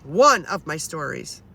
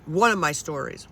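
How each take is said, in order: First: Slow down and lean hard on "One"; "One" drawn out and emphasized; stress on ONE. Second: Said in the usual way. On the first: Real, not acted. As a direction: make "One" stand out, stretched long. Repeats phrase, stressing the first word.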